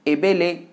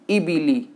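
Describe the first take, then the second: First: Each vowel is an e sound. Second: Each vowel is a clear i sound. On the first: The speaker calls it wrong. "ई की जगह उसे ए पढ़ दे, बी की जगह बे पढ़ दे और ली की जगह ले पढ़ दे" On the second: The speaker calls it right. "मारूफ कहते हैं सही पढ़ने को"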